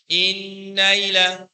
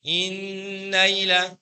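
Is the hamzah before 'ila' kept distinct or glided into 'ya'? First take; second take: glided; glided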